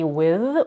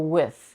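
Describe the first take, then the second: First: The th sound is voiced, with buzzing. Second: The th sound is voiceless, without buzzing. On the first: "either a voice th" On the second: "or a voiceless th"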